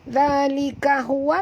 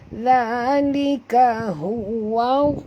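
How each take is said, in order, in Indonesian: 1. Frasa itu diucapkan dengan cepat tanpa dipanjangkan. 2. Frasa itu diucapkan dengan lambat dengan bunyi yang dipanjangkan. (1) "Contoh saya baca cepat" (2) "kalau kita ambil masa sikit nak sebut"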